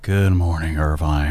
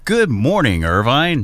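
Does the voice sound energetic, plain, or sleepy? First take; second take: sleepy; energetic. First: It is said sleepily, low in energy. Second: It is said with more energy.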